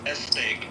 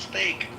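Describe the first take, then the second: First: An extra 'e' vowel comes before the word. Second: The word starts directly with the s sound. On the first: The speaker calls it wrong. "my fiance always says S steak" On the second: The speaker calls it right. "It's steak"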